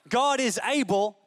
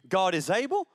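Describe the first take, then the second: First: It ends with a firm, falling exclamation. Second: It ends with a rising, questioning tune.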